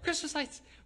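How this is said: It is said with genuine excitement.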